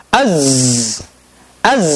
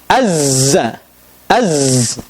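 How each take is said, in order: No difference in how they are said.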